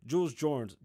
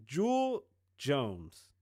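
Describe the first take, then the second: First: Said in the usual way. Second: Carefully correcting the name; slow careful naming. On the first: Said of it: "corrects the name". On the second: Shown as a demonstration. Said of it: "slow corrected take".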